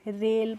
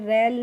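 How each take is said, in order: First: The vowel is closer, like in 'say'. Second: The vowel is open, like in 'air'. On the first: The speaker calls it right. "रेल पढ़ना है" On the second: The speaker calls it wrong. "रेल नहीं"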